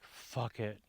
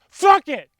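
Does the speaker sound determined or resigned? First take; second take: resigned; determined. First: Said low and deflated, in a resigned way. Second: Said forcefully and energetically, in a determined way. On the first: The speaker is giving up and expects never to make it. "usually men and young men say it kind of like this" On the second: The speaker is committing to take action. "when men are moved to do good shit, they say it like this"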